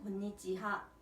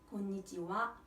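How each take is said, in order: First: The last syllable is said as ha. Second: The last syllable is said as wa. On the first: This is how it is written. The speaker calls it wrong. "쓸 때는 곤니치하" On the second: This is how it is spoken. The speaker calls it right. "발음을 하실 때는 곤니치와"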